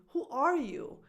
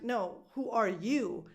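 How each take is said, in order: First: ARE pitched high, then falling; stress on ARE. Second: Slow, with YOU stressed. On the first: Someone asking you first, ARE stressed. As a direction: punch "are", drop "you". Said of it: "if someone asks you". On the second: Asking back after being asked, YOU stressed. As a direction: turn it back slowly onto "you". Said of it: "then the stress goes on you". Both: Shown as a demonstration.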